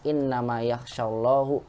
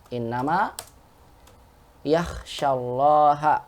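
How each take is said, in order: First: The word Allah ends with a u vowel. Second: The word Allah ends with an a vowel. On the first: God is the one who fears the scholars. The speaker calls it wrong. "dibacanya Allahnya domah" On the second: The scholars are the ones who fear God. The speaker calls it right. "gitu tulisannya"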